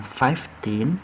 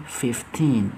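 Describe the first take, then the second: First: "fifteen" said slowly as "faiftin" with an ai vowel; "fifteen" with the first vowel like "five"; wrong way: faif-teen. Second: "fifteen" said slowly with a short i, "fiftin"; "fifteen" with a short first vowel like "fit"; right way: fif-teen. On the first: Teacher shows the mistake: slow "faif-teen". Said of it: "bukan fifteen". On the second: Teacher models the right word: slow, short-i "fifteen". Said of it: "tapi fifteen". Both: Shown as a demonstration.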